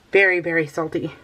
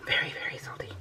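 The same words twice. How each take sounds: First: Said in the usual way. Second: Whispered, no voice at all. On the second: Shown as a demonstration. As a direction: whisper it like a secret.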